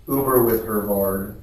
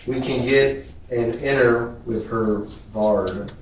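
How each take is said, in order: First: "Uber" said as oo-ber, fixing the slip; "Uber" said clearly the second time; corrected word. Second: "inner" said as inner, a slip for Uber; the word "inner" read out by mistake; misread word. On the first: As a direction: correct yourself and say "Uber" properly. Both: Shown as a demonstration.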